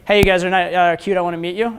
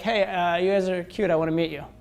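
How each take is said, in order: First: It is said with engaged, present intention. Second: It is said flatly, without intention or presence.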